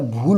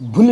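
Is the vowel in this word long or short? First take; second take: long; short. First: The vowel in the word is long. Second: The vowel in the word is short. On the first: The speaker calls it right. "भूल होता है" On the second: The speaker calls it wrong. "भूल नहीं होता"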